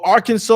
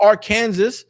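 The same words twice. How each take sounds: First: Arkansas said as "AR-kan-saw"; standard pronunciation. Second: Arkansas said as "ar-KAN-zus"; spelling pronunciation. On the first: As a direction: end Arkansas in "saw", silent final s. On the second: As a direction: say Arkansas like "Ar" plus "Kansas". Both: Shown as a demonstration. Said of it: "however you grew up pronouncing it".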